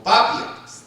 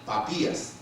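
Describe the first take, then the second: First: "Papias" as PA-pias, the i unstressed; slow "Papias", stressing the opening Pa; stress on first syllable. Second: "Papías" as pa-PÍ-as, lower and softer; stress on the I. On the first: Preacher testing the other reading of a name, "Papias" stressed on PA. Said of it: "No, porque el acento es en la I". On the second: Preacher correcting himself on a name, "Papías" with stress on the í. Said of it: "el acento es en la I". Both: Shown as a demonstration.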